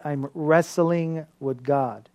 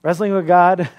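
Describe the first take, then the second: First: "wrestling" drawn out slow and soft; slow stress on wrestling. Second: "Wrestling with God" said out louder, "God" landing hard; punchy callback. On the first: Pastor planting the idea for his congregation, slow and soft. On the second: Pastor calling back the phrase to the congregation, louder. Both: Shown as a demonstration. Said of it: "Keep that in mind".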